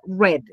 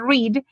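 First: The vowel is short, as in 'red'. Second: The vowel is long, as in 'reed'. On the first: It is the past tense or past participle. "en pasado y pasado participio read" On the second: It is the present tense. "En presente se dice read"

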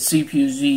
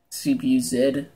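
First: The last letter is said the American way, zee. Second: The last letter is said the Canadian way, zed.

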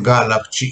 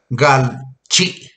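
First: The two parts are joined by an added vowel. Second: The two parts are joined with no vowel between. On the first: "para transitar suavemente de la palabra gal a la palabra chi ... Entonces dicen galachi" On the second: "si se dijera gal chi, ya se puede decir, pero no lo pronuncian así las personas grandes"

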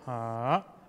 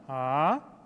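First: The pitch dips down then rises slightly. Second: The pitch rises from low to high. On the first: "you go down first and a little bit going up a little bit" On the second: "from low to high"

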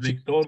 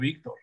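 First: The stress is on the last syllable. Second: The stress is on the first syllable. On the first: The speaker calls it wrong. "Tú no pronuncias Víctor" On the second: The speaker calls it right. "sino Víctor"

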